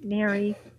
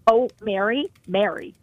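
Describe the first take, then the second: First: It sounds let down and disappointed. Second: It sounds anxious and worried. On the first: The speaker is let down by the person. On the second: The speaker is concerned about something. "which tells you, I'm worried"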